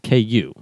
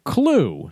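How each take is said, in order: First: The word is said without an L sound. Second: The word is said with an L sound. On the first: The speaker calls it right. "The first one does not have the L in it. It's just KU" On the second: The speaker calls it wrong. "it's not Clue"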